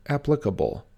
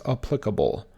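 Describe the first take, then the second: First: Applicable with stress on AP; correct pronunciation. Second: Applicable with stress on PLIC; common mispronunciation. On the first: Teacher showing viewers the right stress. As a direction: say applicable as AP-li-ca-ble. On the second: Teacher showing viewers the wrong stress. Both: Shown as a demonstration. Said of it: "often mispronounced as applicable".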